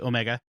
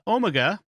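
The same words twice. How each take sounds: First: It is said with an American accent. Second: It is said with a British accent.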